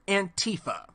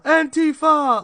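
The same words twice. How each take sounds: First: It is said with a plain English pronunciation. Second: It is said with a put-on German-sounding pronunciation.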